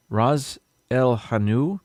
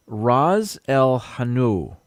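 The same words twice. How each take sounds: First: Ras El Hanout said slowly, rising at the end like a question; questioning second go at Ras El Hanout; unsure second try. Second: Ras El Hanout said slowly, rolling R, hard h; careful try at a new word. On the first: Host checks the name for viewers, doubtful rising try. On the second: Reading a recipe to viewers, slow careful try at Ras El Hanout. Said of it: "something else I've never said before". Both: Shown as a demonstration.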